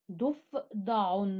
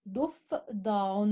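First: Said in the usual way. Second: ضفدع said very slowly, each syllable stretched; slow syllable demo. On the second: Shown as a demonstration. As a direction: spell ضفدع out slowly for children. (ضفدع بنطق بطيء ممدود) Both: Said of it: "الحرف الناقص هو حرف الفاء".

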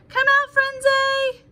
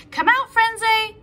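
First: Higher, slow, stretched call across the garden; long drawn-out call. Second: Louder, higher call to a hidden friend; shouted. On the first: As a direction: sing it out slowly, like searching far away. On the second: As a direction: call her out of hiding. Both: Acted. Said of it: "shouted Legs".

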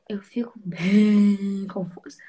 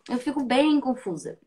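First: Slow whisper, drawn out. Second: Said in the usual way. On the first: Shown as a demonstration. Host repeats her confusion to her fans, in a slow whisper. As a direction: whisper it slowly to the camera.

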